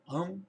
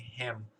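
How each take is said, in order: First: The word is reduced, losing its h sound. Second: The word is said in full with its h sound. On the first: "parece mais um" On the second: "ele não vai parar e dizer assim"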